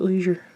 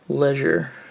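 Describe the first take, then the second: First: The word is said the American way. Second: The word is said the non-American way. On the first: The speaker calls it right. "I'm American. In America. I'm supposed to pronounce it leisure" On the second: The speaker calls it wrong. "I don't know why I said leisure"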